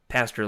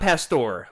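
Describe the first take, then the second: First: It is pronounced like the word for a shepherd. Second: It is pronounced like the name of the meat dish. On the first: This is the intended name. The speaker calls it right. "Pastor like the the shepherd" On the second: This is not the intended name. The speaker calls it wrong. "it's not Pastor like the meat"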